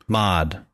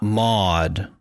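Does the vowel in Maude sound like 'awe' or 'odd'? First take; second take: odd; awe. First: The vowel is short, like in 'odd'. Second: The vowel is long, like in 'awe'. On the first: The speaker calls it right. "M-O-D, Maude" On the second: The speaker calls it wrong. "Not Maude"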